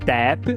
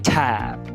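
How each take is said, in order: First: The first consonant has no puff of air. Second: The first consonant has a puff of air. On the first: The speaker calls it wrong. "não é tap" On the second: The speaker calls it right. "ou a própria aspiração"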